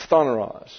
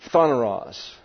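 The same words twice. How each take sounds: First: Phaneros said again, plain and quick; Greek password repeated. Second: Phaneros said slowly as a password; Greek password. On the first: Teacher repeating the password for the class. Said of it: "could not handle the double consonant". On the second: Teacher demoing the ancient Greek password, careful. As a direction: pronounce phaneros like a shibboleth. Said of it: "a password that had these double consonants". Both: Shown as a demonstration.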